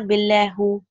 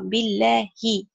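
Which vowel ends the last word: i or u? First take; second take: u; i. First: The word ends in a u vowel. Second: The word ends in an i vowel. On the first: The speaker calls it wrong. "It's not billahu" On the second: The speaker calls it right. "which is in kasra"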